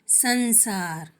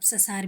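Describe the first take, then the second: First: The first syllable is said with nasal sound. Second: The first syllable is said without nasal sound. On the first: The speaker calls it right. "ध्वनि तेज हो गई है" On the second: The speaker calls it wrong. "ससार भी कोई शब्द नहीं होता है"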